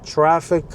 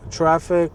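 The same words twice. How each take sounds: The two takes are said the same way.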